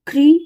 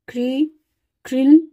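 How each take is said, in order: First: ख्री said short and quick, higher and louder; short ri matra. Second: ख्रिल drawn out very slowly, the ri held long; long ri matra. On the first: Teacher showing students the short ri matra, crisp and short. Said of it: "तो इसको उच्चारण करेंगे". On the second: Teacher showing students the long ri matra, drawn out very slowly. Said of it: "बड़ी री लगी". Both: Shown as a demonstration.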